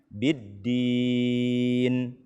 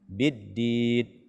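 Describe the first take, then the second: First: The final n is held with nasal resonance. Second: The final n is cut off abruptly. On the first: The speaker calls it right. "berikanlah hak gunnahnya" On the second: The speaker calls it wrong. "terlalu cepat kita berhenti"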